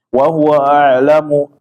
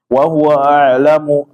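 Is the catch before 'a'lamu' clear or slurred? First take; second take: slurred; slurred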